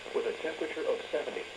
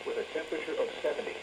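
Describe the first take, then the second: No difference in how they are said.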